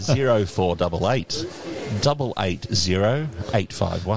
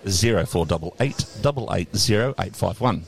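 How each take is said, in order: First: The number is read slowly. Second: The number is read quickly.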